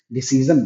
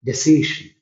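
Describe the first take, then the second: First: डिसीजन said with a plain z sound, dee-see-zun; the common mistake, डिसीजन with z in the middle; wrong pronunciation. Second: डिसीजन said with a clear sh sound, de-si-shun; correct pronunciation. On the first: Teacher showing students the common wrong way, with a z sound. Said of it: "गलत है". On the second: Teacher giving students the correct form, a careful sh sound. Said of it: "यहाँ तालिब श ही होता है". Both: Shown as a demonstration.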